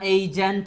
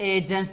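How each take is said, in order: First: The first vowel glides from 'e' to 'i'. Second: The first vowel is a plain short 'e'. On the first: "এজেন্ট না এইজেন্ট" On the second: "এজেন্ট না এইজেন্ট"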